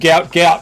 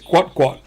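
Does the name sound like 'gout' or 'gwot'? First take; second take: gout; gwot. First: The name rhymes with 'out'. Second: The name is said with a 'gw' and 'ot' sound. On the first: This is how most people say it. The speaker calls it wrong. "Everyone's just calling him Gout Gout" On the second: This is the name's real pronunciation. The speaker calls it right. "unfortunately, it's Gwot Gwot"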